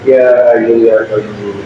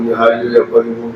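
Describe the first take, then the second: First: The phrase is said slowly and deliberately. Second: The phrase is rushed and said very fast. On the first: It is recited with heartfelt reflection. The speaker calls it right. "Iya pelan-pelan tuh" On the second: It is recited only to reach a count. The speaker calls it wrong. "sampai kebanteran sampai keliru-keliru"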